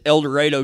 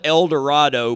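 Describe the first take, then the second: First: The name is pronounced the way locals say it. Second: The name is pronounced just as it is spelled. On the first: The speaker is a local. The speaker calls it right. "But it's El Dorado" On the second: The speaker is new to the town. The speaker calls it wrong. "it's spelled El Dorado, but you can always tell who the new people are because that's how they pronounce it"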